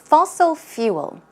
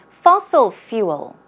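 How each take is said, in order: Both takes have the same delivery.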